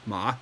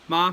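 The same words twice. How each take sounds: First: The pitch dips low and then rises. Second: The pitch stays high and level. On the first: It means horse. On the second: It means mom. "first tone"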